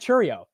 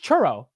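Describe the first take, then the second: First: It ends with an extra ee sound before oh. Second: It ends with a plain oh, no ee sound. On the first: The speaker calls it wrong. "maybe I said it with an I" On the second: The speaker calls it right. "but it's churro"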